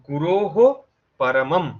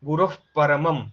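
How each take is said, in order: First: The visarga is said as a full 'h' sound. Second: The visarga is cut short as a half breath. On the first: "সাধারণত আমাদের বলার কথা গুরোহ পরমম" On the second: "বিন্দুটাকে একটা আহ sound দিয়ে অর্ধেকেই break করতে হবে"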